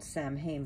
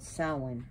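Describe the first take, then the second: First: Samhain said as spelled, "sam-hain"; spelling pronunciation. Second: Samhain said "sow-in", silent mh; true pronunciation. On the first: Vlogger showing how the name is spelled, Samhain as "sam-hain". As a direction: say "Samhain" letter for letter, with the m sounded. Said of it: "spelled Samhain". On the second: Vlogger correcting the spelled form, Samhain as "sow-in". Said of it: "spelled Samhain, but Samhain". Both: Shown as a demonstration.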